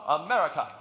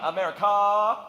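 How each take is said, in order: First: The word is cut off very short. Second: The word is held out long. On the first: The speaker calls it right. "Real quick" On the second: The speaker calls it wrong. "we don't want to hold on"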